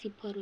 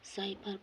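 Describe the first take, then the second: First: The first vowel sounds like short 'i'. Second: The first vowel sounds like 'ai'. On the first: The speaker calls it right. "सिफर होकर उच्चारण" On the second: The speaker calls it wrong. "उच्चारण में mistake होला"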